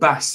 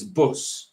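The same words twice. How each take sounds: First: It is said with a standard English vowel. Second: It is said with a Coventry/Brummy vowel.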